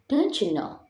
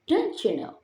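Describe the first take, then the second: First: The words blend together with reduced sounds. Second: The same.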